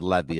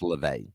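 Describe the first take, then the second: First: The name is said like 'Levy'. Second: The name is said like 'LaVey'. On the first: The speaker calls it wrong. "the announcer pronounced it wrong. He said Levy" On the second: The speaker calls it right. "It's LaVey"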